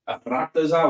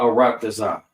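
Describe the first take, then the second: First: The R is rolled with a trill. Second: The R is said without any trill. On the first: The speaker calls it wrong. "It's not Arataza, Arataza. We don't do that. We don't roll R's" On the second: The speaker calls it right. "we do not roll our R's in Hebrew"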